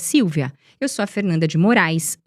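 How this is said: Silent pauses separate each phrase. The speaker sounds more authoritative. The speaker calls it right. "Eu trago muito mais autoridade"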